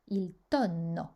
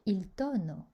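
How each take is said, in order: First: Tonno with a long, held double N; doubled consonant. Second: Tonno said as tono, with one short N; single consonant. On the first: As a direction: hold the NN in tonno. (« tonno » avec un double n bien prolongé) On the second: (« tonno » avec un seul n court, comme tono) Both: Shown as a demonstration. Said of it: "il faut prolonger".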